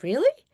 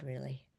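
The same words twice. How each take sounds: First: Really? high and louder with a sharp rise; Really? asked in bright disbelief; surprised question. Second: Really. low and much softer with a falling tune; Really. said calm and certain, nearly hushed; quiet assurance. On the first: Patient doubting the doctor's promise, Really? rising high. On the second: Doctor reassuring his patient, Really. low and soft. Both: Retold or imitated.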